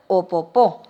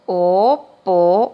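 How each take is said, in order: First: Said in the usual way. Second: "Opopó" slowly broken into O, po, pó; slow syllable dictation. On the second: Shown as a demonstration. Teacher dictating a word to pupils, "Opopó" slow, syllable by syllable. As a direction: stretch and separate each syllable of "Opopó". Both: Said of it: "Entonces le dicto".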